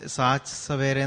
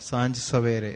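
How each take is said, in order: First: The first word has a plain 'ch' sound. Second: The first word has a nasal 'nj' sound. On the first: The speaker calls it wrong. "സാച്ച് സവേരെ എന്നാ കേട്ടത്" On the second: The speaker calls it right. "സാഞ്ച് അല്ലെ"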